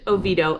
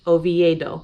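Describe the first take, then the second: First: It is said locally with fewer syllables. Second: It is said Spanish-style with more syllables. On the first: The speaker calls it right. "if you want to sound like a local" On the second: The speaker calls it wrong. "like you would if you were speaking Spanish"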